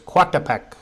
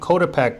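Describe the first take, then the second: First: The start is split into two vowels, co-a. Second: The start sounds like the English word coat. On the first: The speaker calls it right. "but it's Coatepec" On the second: The speaker calls it wrong. "I was saying Coatepec"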